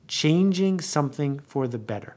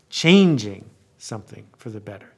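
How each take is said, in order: First: The stress falls on the word better. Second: The stress falls on the word changing.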